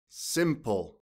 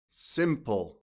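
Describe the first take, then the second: No difference in how they are said.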